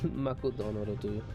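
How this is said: The name is said with Japanese pronunciation. "The Japanese pronunciation is Makudono"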